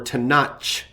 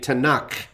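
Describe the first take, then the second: First: The word ends with a ch sound. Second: The word ends with a throaty guttural sound. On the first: The speaker calls it wrong. "or a C H sound" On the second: The speaker calls it right. "It ends with that throat-clearing guttural"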